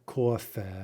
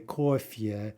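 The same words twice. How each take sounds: First: The final vowel has no y sound. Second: The final vowel has a y sound. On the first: The speaker calls it wrong. "not coffee or something" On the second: The speaker calls it right. "indeed we say yeah, right? So we say coffee"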